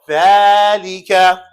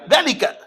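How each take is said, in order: First: The first vowel is long. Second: The first vowel is short. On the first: The speaker calls it right. "It's actually an elongation" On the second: The speaker calls it wrong. "That's wrong"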